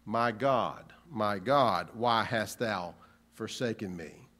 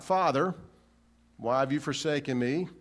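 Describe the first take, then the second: First: Lower, falling, heavy delivery; low falling cry to God; the real cry. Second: Rising plea to Father; the wrong version. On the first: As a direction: let it sink as the true words. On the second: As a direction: lift it as the version he did not say. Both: Shown as a demonstration.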